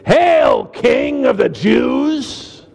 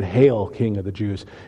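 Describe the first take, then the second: First: It is said with goofy, dramatic emphasis like the pastor. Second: It is said plainly, without special emphasis.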